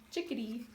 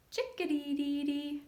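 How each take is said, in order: First: Said in the usual way. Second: High sung bird call; chickadee call. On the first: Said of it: "sounds like it's saying its name". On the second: Shown as a demonstration. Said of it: "Chickadee is an acrobat".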